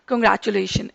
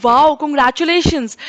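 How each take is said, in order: First: Cold congratulations. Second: Bright, pleased "wow, congratulations" said with a smile; teacher contrasting a cold version with a heartfelt "wow, congratulations"; happy congratulations. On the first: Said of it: "आपको खुशी मिलेगी ही नहीं". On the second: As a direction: sound genuinely delighted for them. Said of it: "ma'am दिल से congratulations कर रही हैं". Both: Shown as a demonstration.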